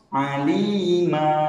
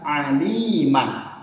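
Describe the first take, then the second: First: The word ends on a vowel, no n. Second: The word ends with an n sound. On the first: The reader stops at this word. "karena kita berhenti di kalimat tersebut" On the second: The reading continues without stopping. "Man di ujungnya berfathatain"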